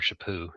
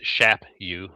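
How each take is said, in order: First: The name starts with a softer sound. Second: The name starts with a harder sound. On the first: This is how the sisters say it. "My sisters do it a bit softer, more chapu" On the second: This is how the father says it. "I pronounce it like my dad, which is shap you, rhyming with slap you"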